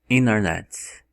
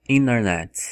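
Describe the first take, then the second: No difference in how they are said.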